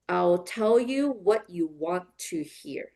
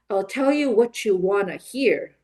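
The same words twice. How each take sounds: First: It is said slowly with each word separate. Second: It is said faster with a strong rhythm. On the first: "I'll model it slowly first" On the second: "a little bit faster with rhythm"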